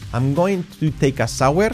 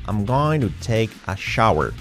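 First: Shower does not start with a sh sound. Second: Shower starts with a soft sh sound. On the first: The speaker calls it wrong. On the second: The speaker calls it right. "sha, sha, sha"

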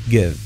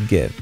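Both takes have the same delivery.

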